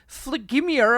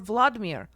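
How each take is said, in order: First: The name is said with a French-style accent. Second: The name is said with a Russian-style accent. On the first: The speaker calls it wrong. "She was like trying to say it French" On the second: The speaker calls it right. "If she's gonna say it in a proper accent"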